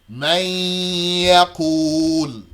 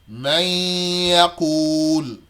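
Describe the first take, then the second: The two takes are said the same way.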